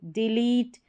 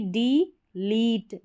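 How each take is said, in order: First: Said in the usual way. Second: डी लीट said slowly in two parts; broken into syllables. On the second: Shown as a demonstration. Teacher sounding out the parts for students, slow. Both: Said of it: "break करके पढ़ना".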